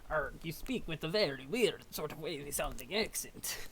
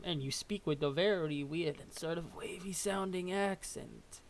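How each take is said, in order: First: It is said in a put-on pirate voice. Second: It is said in his normal voice.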